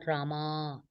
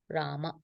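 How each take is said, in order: First: The final vowel is long. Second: The final vowel is short. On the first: The word would be feminine. The speaker calls it wrong. "It's not Rama" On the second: The word is masculine. The speaker calls it right. "masculine, it's Ram, Rama"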